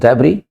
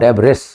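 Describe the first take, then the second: First: The word ends without an s sound. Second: The word ends with an s sound. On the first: The speaker calls it right. "इसमें एस नहीं बोलता है" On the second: The speaker calls it wrong. "Not डेबरिस"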